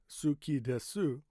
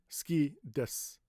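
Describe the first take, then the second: First: The u in suki is clearly pronounced. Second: The u in suki is dropped. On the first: "technically is correct because that's correct pronunciation" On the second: "they say ski desu"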